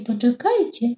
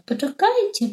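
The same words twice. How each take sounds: First: A repeated call, less high; calling again. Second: A high call out the window. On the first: Stork calls again to the flock, less high. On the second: Stork shouts after the departing flock, high call. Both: Acted. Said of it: "zaczął wołać".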